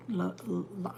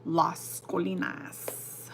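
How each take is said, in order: First: "La, La" as a stuck false start, breaking off; stumbling on the word. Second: "Las Colinas" spelled out syllable by syllable, very slow; careful slow pronunciation. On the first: Tripping while telling chat about the hospital. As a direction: trip over "La" twice before the name. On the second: Naming her daughter's birth hospital, very slowly. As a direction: place each syllable of "Las Colinas" deliberately. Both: Shown as a demonstration. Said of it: "I could never say that word".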